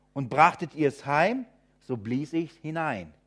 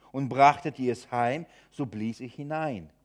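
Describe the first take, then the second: Both takes have the same delivery.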